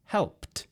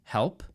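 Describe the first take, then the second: First: Helped ending in a crisp T sound, pitch up. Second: Said in the usual way. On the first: Shown as a demonstration. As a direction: clip helped off with a clear T. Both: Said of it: "we add a T sound at the end".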